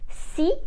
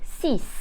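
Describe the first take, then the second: First: The final consonant sound is silent. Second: The final consonant sound is pronounced. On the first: The speaker calls it right. "the last sound of these three numbers becomes silent" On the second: The speaker calls it wrong.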